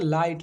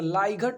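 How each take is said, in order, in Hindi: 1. अंतिम t से पहले कोई g की आवाज़ नहीं बोली जाती। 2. अंतिम t से पहले g की आवाज़ बोली जाती है। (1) "जीएच तो साइलेंट है" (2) "अगर हम लेटर टू लेटर पढ़ें तो लाइघट हो जाएगा"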